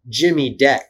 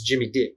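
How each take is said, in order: First: It is said in his plain accent. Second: It is said in a New Zealand accent.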